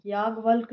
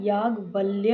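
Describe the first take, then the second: First: याज्ञवल्क ending bluntly on k; missing final y. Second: Said in the usual way. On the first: Shown as a demonstration. Teacher showing students an error, missing final y. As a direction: leave the य off याज्ञवल्क. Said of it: "नहीं". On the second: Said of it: "होता है".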